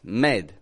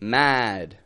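First: The vowel is the mid 'e' sound. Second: The vowel is the open 'a' sound. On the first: The speaker calls it wrong. "People will often pronounce the a like an e" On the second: The speaker calls it right. "Instead of saying the word mad"

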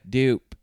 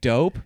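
First: The word is said in a Baltimore accent. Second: The word is said in a neutral accent. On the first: "but it's like dope" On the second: "one of them was saying dope"

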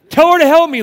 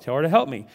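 First: It is said in an exasperated, complaining voice. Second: It is read in a plain, even voice.

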